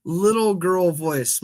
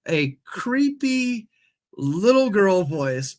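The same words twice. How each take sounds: First: Said in the usual way. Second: Put-on slow, high creepy little girl; drawn-out spooky child voice; eerie ghost child. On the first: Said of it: "In a creepy". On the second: Shown as a demonstration. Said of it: "And a creepy little girl voice".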